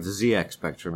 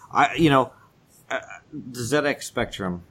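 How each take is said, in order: First: The name is said the American way. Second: The name is said the British way.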